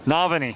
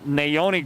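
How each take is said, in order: First: The middle sounds like 'vah' with a v. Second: The middle sounds like 'oh' with no v. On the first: The speaker calls it right. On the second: The speaker calls it wrong.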